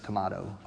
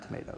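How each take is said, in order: First: Tomato is said the British way, with 'ah'. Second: Tomato is said the American way, with 'ay'. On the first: This is how the chef pronounces it. "He says tomato" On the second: This is how the chef does not pronounce it. "not tomato"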